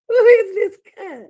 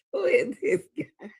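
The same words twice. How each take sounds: First: High, loud shouted question; incredulous shout. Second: Said in the usual way. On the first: Real, not acted. Shouting at the screen in disbelief. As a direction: belt it out in disbelief. Repeats question, much louder.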